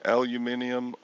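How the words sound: The word is said with five syllables. This is how it is said over there. "You say aluminium or something like that"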